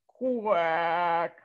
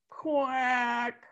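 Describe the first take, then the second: First: A quack that breaks into a sob; crying quack. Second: A lightly voiced tired duck; weary quack. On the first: Acted. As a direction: quack as if close to tears. Duck fed up, near tears. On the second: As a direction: quack with fading energy. Duck answers wearily.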